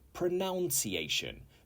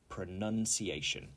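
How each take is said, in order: First: The second syllable sounds like 'noun'. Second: The second syllable sounds like 'nun'. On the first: The speaker calls it wrong. "They say pronunciation because the verb in its standard form is to pronounce" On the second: The speaker calls it right. "the noun is pronunciation"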